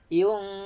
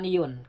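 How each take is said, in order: First: The n is blurred into a held nasal sound. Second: The n is pronounced clearly and distinctly. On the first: The speaker calls it right. "disamarkan bacanya" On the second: The speaker calls it wrong. "bukan yun"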